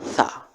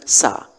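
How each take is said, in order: First: It begins with the tongue between the teeth. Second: It begins with a plain hissing s sound. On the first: The speaker calls it right. "lidah kita itu ada di ujung gigi, agak keluar" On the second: The speaker calls it wrong. "bukan sa"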